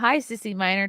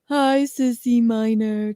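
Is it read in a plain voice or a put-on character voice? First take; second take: plain voice; character voice. First: It is read in the speaker's plain voice. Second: It is read in a put-on, Forrest Gump-like voice.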